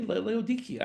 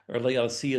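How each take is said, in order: First: The C is said as a hard K sound. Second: The C is said as a soft S sound. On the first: "the C is a K sound" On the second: "as we often pronounce it"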